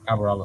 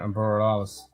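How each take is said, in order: First: The name is said starting with arbor. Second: The name is said like the word borealis. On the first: The speaker calls it right. "It's Arboralis" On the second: The speaker calls it wrong. "you still can't fucking say that properly"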